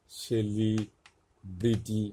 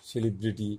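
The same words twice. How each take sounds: First: সেলিব্রিটি very slowly, broken into সেলি and ব্রিটি with a pause; syllable-by-syllable demonstration. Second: Said in the usual way. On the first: Shown as a demonstration. Teacher breaking down সেলিব্রিটি to show C as S, very slow demonstration. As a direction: stretch সেলিব্রিটি out in separated parts, starting on a clear S. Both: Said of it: "এর উচ্চারণটা হচ্ছে দন্তস্বর মতো".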